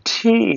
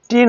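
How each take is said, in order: First: The letter is said in a British style. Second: The letter is said in a local Bengali style. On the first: The speaker calls it right. "Correct pronunciation ঠি" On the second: The speaker calls it wrong. "টি না"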